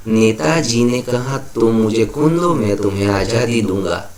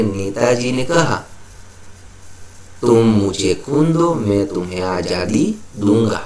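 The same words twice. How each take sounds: First: Said in the usual way. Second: Long pause after "कहा", then the quote in measured groups up to "दूंगा"; punctuated reading. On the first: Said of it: "ये भी सीधा लिखा है". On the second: Shown as a demonstration. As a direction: stop after "कहा" before opening the quotation. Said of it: "विराम चिन्ह का प्रयोग करके". ("कहा" के बाद लंबा विराम, फिर उद्धरण ठहरकर पढ़ें)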